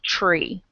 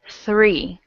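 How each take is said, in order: First: The word begins with a ch-like sound. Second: The word begins with an airy th sound. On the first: The speaker calls it wrong. "it has a T R, and it sounds like this. It sounds like C H R E E" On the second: The speaker calls it right. "you're going to do a T H. Okay? Three, like that"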